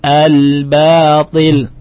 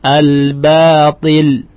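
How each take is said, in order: Both takes have the same delivery.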